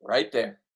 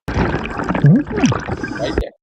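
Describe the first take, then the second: First: Said in the usual way. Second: High, loud excited call-out. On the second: Real, not acted. Diver spotting a halibut, excited call-out. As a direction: point it out with a thrill. Pointing out a fish.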